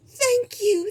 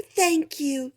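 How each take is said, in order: First: Much higher gushing thanks; diva queen. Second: Higher but calmer repeat. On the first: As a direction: accept the adoration like a diva. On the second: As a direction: repeat the thanks more gently. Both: Acted. Queen greets bowing boars.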